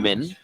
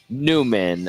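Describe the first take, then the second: First: The first syllable sounds like 'nye'. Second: The first syllable sounds like 'new'. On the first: The speaker calls it wrong. "it looks like" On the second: The speaker calls it right. "it's pronounced Newman"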